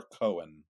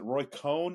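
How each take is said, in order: First: "Cohen" in two syllables, KOH-en; alternative pronunciation. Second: "Cohn" as one syllable, rhyming with cone; alternative pronunciation. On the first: Unsure host offering the other way to say the lawyer's name, "Cohen" as two syllables. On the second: Unsure host offering one way to say the lawyer's name, "Cohn" as one syllable. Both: Shown as a demonstration. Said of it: "I don't know how it's pronounced".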